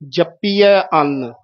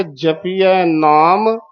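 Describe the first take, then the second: First: ਜਪੀਐ ਅੰਨ slowly with doubled p; tight. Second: ਜਪੀਐ ਨਾਮ slowly, light single p; soft. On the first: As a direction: press the p of ਜਪੀਐ before ਅੰਨ. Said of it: "ਇੱਕ ਜਪੀਐ ਕੱਸ ਕੇ". (ਜਪੀਐ ਅੰਨ ਕੱਸ ਕੇ) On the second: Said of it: "ਪਹਿਲਾ ਜਪੀਐ ਪੋਲਾ". (ਜਪੀਐ ਨਾਮ ਪੋਲਾ, ਹੌਲੀ) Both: Shown as a demonstration.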